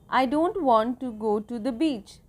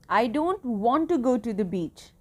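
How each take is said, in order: First: It is said as a plain statement. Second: It is said with strong feeling.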